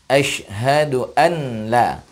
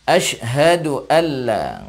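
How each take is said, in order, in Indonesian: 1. 'n' dibaca jelas sebelum 'la'. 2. 'n' menyatu dengan bunyi 'l'. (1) "bukan asyhadu an la" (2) "Ketika nun sukun bertemu dengan lam, maka dia masuk"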